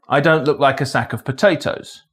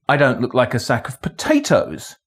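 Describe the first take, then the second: First: No single word carries special stress. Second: The stress falls on the word potatoes. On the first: It is a neutral statement of fact. "a neutral statement of fact" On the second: It might look like a sack of something else. "but I might look like a sack of something else"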